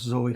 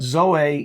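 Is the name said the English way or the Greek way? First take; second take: English; Greek. First: It is said as the common English name. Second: It is said as the Greek word. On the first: This is how many people will say the name. "a lot of people will still probably call us Zoe" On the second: This is the original Greek word for life. "Zoe is the way it's pronounced as the Greek word"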